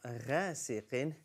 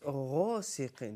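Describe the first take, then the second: First: The first consonant is light and thin. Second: The first consonant is heavy and full-mouthed. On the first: The speaker calls it wrong. "it's not غاسق" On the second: The speaker calls it right. "غين is a full mouth letter"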